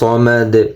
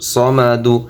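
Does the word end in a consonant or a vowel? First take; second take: consonant; vowel. First: The word ends on a bare d consonant. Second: The word ends with a short u vowel. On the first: The reader stops at this word. "অক্ফ করলে সমাদ" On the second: The word is read in parts without stopping. "দাল পেশ দু"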